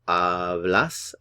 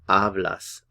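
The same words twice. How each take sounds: First: The stress is on the last syllable. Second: The stress is on the first syllable. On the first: "The stress here is on the last syllable" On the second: "The stress over here is on the first syllable"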